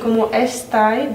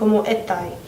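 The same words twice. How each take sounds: First: The s sound is fully pronounced. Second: The s sound is breathed out like h. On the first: "no dicen cómo estáis" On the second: "aspiración de la S"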